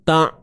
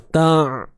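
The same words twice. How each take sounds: First: The voice is cut off abruptly, like a catch. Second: The voice continues smoothly without a catch. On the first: The speaker calls it wrong. "tu tahan" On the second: The speaker calls it right. "biarkan suara kita mengalir"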